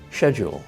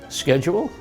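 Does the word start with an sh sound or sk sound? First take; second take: sh; sk. First: The word begins with an sh sound. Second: The word begins with an sk sound. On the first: This is the British way of saying it. "in British English, you say sh" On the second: This is the American way of saying it. "So you don't say sk"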